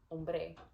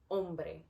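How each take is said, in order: First: The stress is on the second syllable. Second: The stress is on the first syllable. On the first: "If I accent the second syllable" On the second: "This is first how it's supposed to be sounded"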